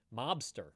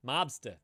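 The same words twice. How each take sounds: First: Said in the usual way. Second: "Mobster" ending in "uh", the R dropped; no-R pronunciation. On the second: Shown as a demonstration. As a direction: drop the final R of "Mobster". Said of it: "that's my version of the no R".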